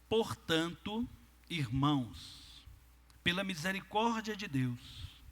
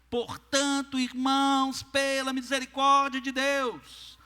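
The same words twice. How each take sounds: First: It is read in a plain, calm voice. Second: It is said in a forceful, vehement voice.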